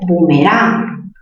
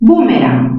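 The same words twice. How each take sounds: First: The stress is on the last syllable. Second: The stress is on the first syllable. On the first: "aguda terminada en n" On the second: "mayor fuerza en bu, esdrújula"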